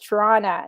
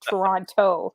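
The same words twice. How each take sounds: First: The second t sound is dropped. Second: Both t sounds are clearly pronounced. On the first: The speaker is from Toronto. "she goes Toronto ... we never pronounce the last T" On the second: The speaker is not from Toronto. "not Toronto ... most Americans always make sure they pronounce the two T's"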